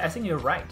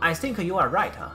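First: Think is weakened and linked to the rest. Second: Think is pronounced heavily with full force. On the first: The speaker calls it right. "咱们要给它弱一点" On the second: The speaker calls it wrong. "就是这样发音啊"

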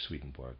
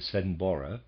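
First: The name has a regular English pronunciation. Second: The name has a non-English, original-style pronunciation. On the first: "I am just pronouncing it using the regular English" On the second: "I understand that the pronunciation of this is somewhat to the effect of"

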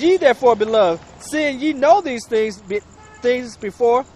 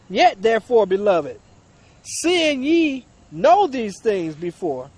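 First: It is read at a normal pace. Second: It is read at a slower pace.

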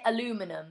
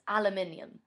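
First: The word is said with an American pronunciation. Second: The word is said with a British pronunciation. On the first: "Americans say aluminum" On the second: "It's aluminium"

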